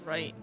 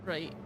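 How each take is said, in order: Both takes have the same delivery.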